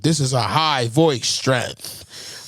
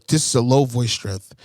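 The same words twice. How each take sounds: First: Very slow, stretched-out announcement; high voice strength. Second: Lower-pitched microphone-test voice; low voice strength. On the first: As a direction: draw it out to show the setting. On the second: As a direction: say it low, testing the setting. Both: Shown as a demonstration.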